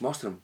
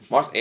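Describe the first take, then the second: First: It sounds open, warm and welcoming. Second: It sounds demanding, sceptical and challenging. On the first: The listener is eager to see what is on offer. "abriu os braços, fiz assim, e disse" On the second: The listener demands proof that it was worth coming. "cruzo os braços e ponho assim, vá, mostra-me"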